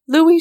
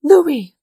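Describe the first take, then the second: First: High, loud rising call; rising ecstatic second call; ecstatic cry. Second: High, loud ecstatic call; ecstatic cry. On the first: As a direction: call his name again, rising with joy. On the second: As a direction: call his name in an ecstasy of joy. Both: A narrator's reading. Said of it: "in an ecstasy of joy".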